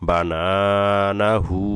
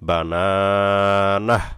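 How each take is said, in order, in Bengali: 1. শব্দটি একটি দীর্ঘ u স্বরে শেষ হয়েছে। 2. শব্দটি থামা h-এ শেষ হয়, কোনো স্বর নেই। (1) "হা উল্টা পেশ হচ্ছে টান হয়েছে এখানে" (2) "কোনো টান হবে না সাকিন করতে হবে"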